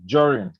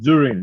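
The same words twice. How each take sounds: First: The word begins with a 'j' sound. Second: The word begins with a plain 'd' sound. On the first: The speaker calls it right. "you pronounce it as a J" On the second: The speaker calls it wrong. "not during"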